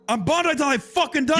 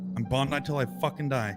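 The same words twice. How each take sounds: First: It is yelled loudly. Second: It is said at normal volume.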